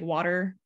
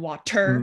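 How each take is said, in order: First: The middle consonant is a quick flap. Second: The middle consonant is a clear t. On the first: "it becomes a ger, like water" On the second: "rather than water"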